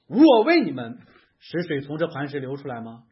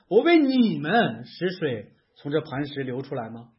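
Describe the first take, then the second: First: The stress falls on the word 我. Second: The stress falls on the word 你们. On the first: The speaker is taking credit for making the water flow. "如果他说的是我，是我为你们让水流出来吗" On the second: The listeners do not deserve to be given the water. "你们配吗"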